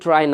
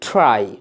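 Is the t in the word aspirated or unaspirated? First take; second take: unaspirated; aspirated. First: The t is plain, without a breathy puff. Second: The t has a strong breathy puff. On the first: The speaker calls it wrong. "এটাকে ট্রাই না বলে" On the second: The speaker calls it right. "ট সাউন্ডটিকে ঠয়ে রূপান্তর করে বলবেন ট্রাই"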